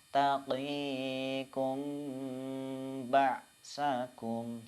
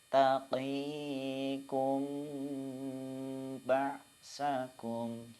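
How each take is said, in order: Both takes have the same delivery.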